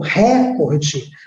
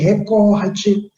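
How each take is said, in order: First: The stress is on the first syllable. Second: The stress is on the middle syllable. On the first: The speaker calls it wrong. "como se a sílaba tônica fosse o ru ou ré" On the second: The speaker calls it right. "É o mesmo que acontece em recorde"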